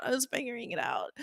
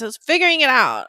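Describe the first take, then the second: First: Fast, much softer mutter; muttered aside. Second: Said in the usual way. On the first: Real, not acted. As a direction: toss it off under your breath. Repeated line, muttered aside.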